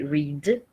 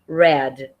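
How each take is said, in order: First: The vowel is long, rhyming with seed. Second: The vowel is short, rhyming with bed. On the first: It is the present form of the verb. "O verbo read, que é ler" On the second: It is the past form of the verb. "quando a gente pronuncia no passado, a gente vai pronunciar red"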